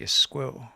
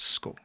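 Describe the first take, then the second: First: The word begins with a vowel before 's'. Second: The word begins directly with the 's' sound. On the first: This is the local southern form. "down here we would say Isco" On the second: This is the northern regional form. "the way she would pronounce it was Sko"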